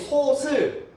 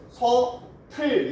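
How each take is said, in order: First: The second syllable starts with an s sound. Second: The second syllable starts with an aspirated t. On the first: The speaker calls it wrong. "다 틀린 발음" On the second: The speaker calls it right. "이렇게 발음을 해야죠"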